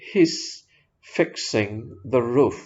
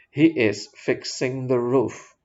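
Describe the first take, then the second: First: The word 'is' is merged into 'he's'. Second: The word 'is' is said clearly and separately. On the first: "langsung digabungkan his" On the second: "is-nya diucapkan dengan jelas"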